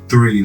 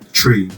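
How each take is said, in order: First: It begins with a TH sound. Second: It begins with a plain T sound. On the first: "talk to myself in the mirror and be like three" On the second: "the number three in our like we say tree"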